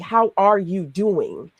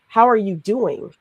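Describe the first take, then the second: First: It is asked sincerely, really meaning it. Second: It is asked casually, as a routine greeting.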